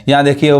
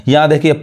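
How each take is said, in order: The two takes are said the same way.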